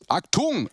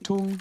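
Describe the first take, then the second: First: The word is barked out harshly. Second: The word is said softly and sweetly. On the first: The speaker calls it wrong. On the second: The speaker calls it right.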